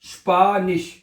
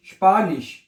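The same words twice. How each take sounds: First: Spanish in two parts, first vowel held; sounding out. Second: Said in the usual way. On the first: Shown as a demonstration. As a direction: teach Spanish as "shpaa-nish". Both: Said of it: "ये शीन हो जाएगा ना".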